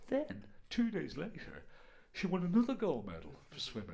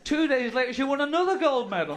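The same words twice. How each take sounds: First: Softer, measured comic set-up; understated telling. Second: Loud, much higher-pitched announcement; worked-up retelling. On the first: Comedian revealing the swimmer's second win, quiet deadpan. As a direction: let it drop quietly, taking your time. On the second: Comedian retelling the swimmer's second win, loud incredulity. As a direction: push it high and loud in disbelief. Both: Shown as a demonstration.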